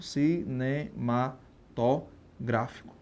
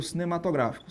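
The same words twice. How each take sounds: First: "cinematográfico" very slow and softer, in separate syllables. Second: Said in the usual way. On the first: Shown as a demonstration. Teacher spelling out the term for students, "cinematográfico" slowly syllable by syllable. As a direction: break "cinematográfico" into pieces with pauses between.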